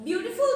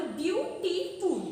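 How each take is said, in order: First: Said in the usual way. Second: "বিউটিফুল" broken into three slow beats, বিউ-টি-ফুল; split into syllables. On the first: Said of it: "বলার সময় ভাঙতে হয়". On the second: Shown as a demonstration. Teacher showing how a word splits, "বিউটিফুল" said syllable by syllable. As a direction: separate each syllable of "বিউটিফুল". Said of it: "তিনটে syllable এরকমভাবে ভাগ হয়".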